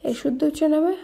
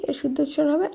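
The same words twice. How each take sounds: Both takes have the same delivery.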